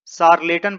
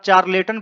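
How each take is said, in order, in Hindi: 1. इस शब्द की शुरुआत sh ध्वनि से होती है। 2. इस शब्द की शुरुआत ch ध्वनि से होती है। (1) "इसे शार्लेटन पढ़ा जाता है" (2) "यदि आप चार्लेटन पढ़ रहे हैं तो आप गलत हैं"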